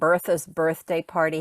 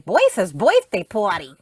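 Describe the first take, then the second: First: It is said in a plain accent. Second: It is said in a Brooklyn accent.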